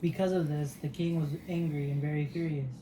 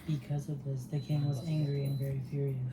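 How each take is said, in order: First: It is read in a louder voice. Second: It is read in a quiet voice.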